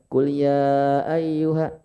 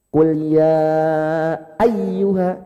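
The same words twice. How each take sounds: First: The phrase is said flat with no emphasis. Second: The doubled consonant is lifted and sharply emphasized. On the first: The speaker calls it wrong. "enggak monoton, enggak qul ya ayyuha, enggak kayak gitu" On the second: The speaker calls it right. "suaranya agak diangkat, agak disentak... intonasinya harus naik"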